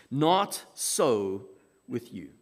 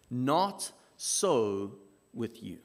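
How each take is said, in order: Both takes have the same delivery.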